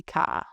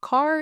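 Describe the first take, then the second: First: "ka" with no r at the end; car said as "ka", open vowel ending; dropped R. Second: Said in the usual way. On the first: Shown as a demonstration. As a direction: drop the r, leaving "ka". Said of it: "you will hear a dropped R". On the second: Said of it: "so instead of car".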